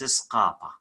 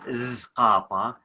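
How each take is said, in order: First: The word begins with an S sound. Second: The word begins with a Z sound. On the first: The speaker calls it right. "it's Scapa" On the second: The speaker calls it wrong. "the sounds of Scapa is not Zqapa"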